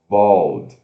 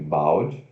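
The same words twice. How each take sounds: First: The vowel sounds like the 'o' in bold. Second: The vowel is read as the spelled 'a'. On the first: The speaker calls it right. "Mas se pronuncia B O L D" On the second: The speaker calls it wrong. "como se fosse bald"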